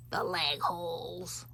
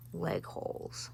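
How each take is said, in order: First: "The leg holes" slow and drawn out in an odd put-on voice; funny drawn-out voice. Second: Said in the usual way. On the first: Shown as a demonstration. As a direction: stretch "The leg holes" in a silly voice. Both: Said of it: "Why do I talk like that sometimes?".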